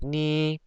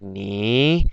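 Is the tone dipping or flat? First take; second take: flat; dipping. First: The pitch stays level throughout. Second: The pitch dips down, then rises. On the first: "it's kind of like you know monotone" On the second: "You go like down up"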